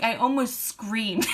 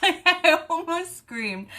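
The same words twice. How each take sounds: First: Slow, emphatic telling; measured build before the laugh; drawn-out confession. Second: High, slow laughing squeal; high-pitched, near-tearful giggly wail; cracking up. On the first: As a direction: stretch it out in a near-usual voice. First take, before laughing harder. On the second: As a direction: squeal it out through helpless laughter. Repeats it while cracking up. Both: Real, not acted.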